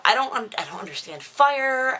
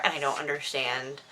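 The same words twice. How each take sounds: First: Exasperated. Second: Said in the usual way. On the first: Real, not acted. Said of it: "rant about fire, voice shoots up". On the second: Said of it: "same words said back down".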